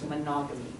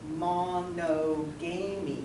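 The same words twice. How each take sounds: First: The word is said with its normal pronunciation. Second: The word is sounded out piece by piece. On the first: The speaker calls it right. "So this is pronounced monogamy" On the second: The speaker calls it wrong. "you go, okay, monogamy, it doesn't work"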